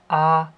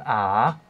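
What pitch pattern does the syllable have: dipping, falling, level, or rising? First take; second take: level; dipping. First: The pitch stays high and level. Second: The pitch dips low, then rises again. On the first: "Beim ersten Ton ... als wäre es ein konkreter fester Ton" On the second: "Der fängt mittel an, sinkt dann ab und steigt dann wieder auf"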